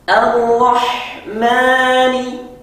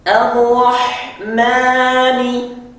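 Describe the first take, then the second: No difference in how they are said.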